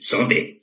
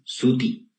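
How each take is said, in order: First: The vowels are lowered, sounding like o and e. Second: The vowels are high, sounding like u and i. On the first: This is how native Quechua speakers say it. The speaker calls it right. "tú dices sote" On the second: This is a Spanish-influenced way of saying it. The speaker calls it wrong. "¿Y por qué no dices suti?"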